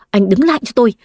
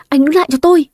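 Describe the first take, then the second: First: Said in the usual way. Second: Shouting after him. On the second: Acted. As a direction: yell after him as he runs. Chasing man with broom. (hét gọi to hơn, lên giọng ở cuối)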